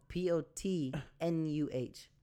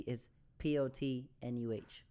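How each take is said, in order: First: Letters "P O T N U H" spelled slowly and clearly. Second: Letters "P O T N U H" spelled slowly, one by one. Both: Shown as a demonstration. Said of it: "When you spell it phonetically".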